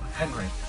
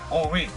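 First: The first H is pronounced, like 'Hen-ri'. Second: The first H is silent, like 'On-ri'. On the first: The speaker calls it wrong. "not Henri" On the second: The speaker calls it right. "It's ONRI"

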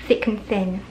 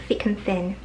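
Both takes have the same delivery.

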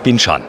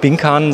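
First: The middle consonant is a soft ch sound. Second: The middle consonant is a hard k sound. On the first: The speaker calls it right. "sondern Binchan" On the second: The speaker calls it wrong. "Nicht Binkan"

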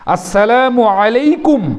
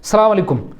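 First: The greeting is pronounced in full, every syllable clear. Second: The greeting is clipped, with its opening syllables dropped. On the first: It is a proper blessing of peace. The speaker calls it right. "এইভাবে শুদ্ধভাবে" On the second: It can turn into a curse on the listener. The speaker calls it wrong. "এটা স্টাইলে পরিণত হয়ে গেছে"

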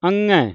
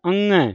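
No difference in how they are said.

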